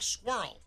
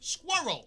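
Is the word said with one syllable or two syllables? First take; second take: one syllable; two syllables. First: The word is squeezed into one syllable. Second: The word is said with two syllables. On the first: The speaker calls it wrong. "You're saying it like squirrel" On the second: The speaker calls it right. "It's not one syllable. It's two"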